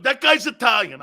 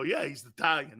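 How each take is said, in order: First: High, loud retold exclamation; excited grandfather. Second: Said in the usual way. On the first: Grandfather watching Franco play, excited. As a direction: proclaim it like a proud fan.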